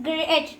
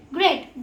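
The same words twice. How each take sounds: First: GREAT pulled apart as gre-at; testing GREAT for a second syllable; trying to split. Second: Said in the usual way. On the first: Shown as a demonstration. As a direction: try breaking GREAT into gre-at. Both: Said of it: "I mean, break great".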